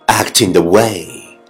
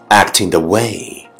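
Both takes have the same delivery.

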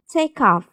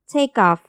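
First: The k runs straight into off, linked. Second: The linked k is softened into a voiced sound. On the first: "可以连读变成take off" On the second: "在美式英语中又可以浊化变成take off"

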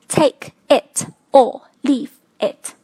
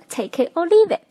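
First: The words are said separately. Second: The words are linked together.

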